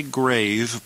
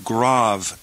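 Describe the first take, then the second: First: "grave" with a long A, like GRAYV; English pronunciation. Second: "grave" with an ah vowel, GRAHV; corrected pronunciation. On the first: Teacher warns students off this reading, "grave" said GRAYV. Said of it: "Don't say grave". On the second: Teacher corrects the name of the accent, "grave" said GRAHV. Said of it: "but rather". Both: Shown as a demonstration.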